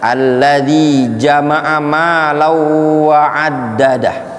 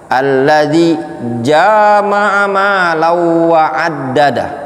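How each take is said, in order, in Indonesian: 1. Vokal pertama jama'a pendek. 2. Vokal pertama jama'a dipanjangkan.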